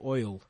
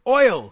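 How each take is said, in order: First: The word is said flatly, without emphasis. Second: The word is exclaimed with loud emphasis.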